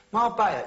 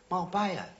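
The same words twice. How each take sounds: First: Marbella said higher and louder, savoured with a falling tune; relishing. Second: Said in the usual way. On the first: Real, not acted. Repeats name, relishing it.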